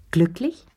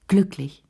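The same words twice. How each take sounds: First: GLÜCKLICH rising sharply at the end, as a question. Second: GLÜCKLICH with a falling end, as a statement; confirming. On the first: Visitor probing her friend's love life, GLÜCKLICH as a rising question. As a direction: ask GLÜCKLICH with an upward lift. Question echoed back as answer. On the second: Lea confirming to her friend, GLÜCKLICH as a falling answer. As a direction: answer GLÜCKLICH, letting the pitch drop. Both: Acted.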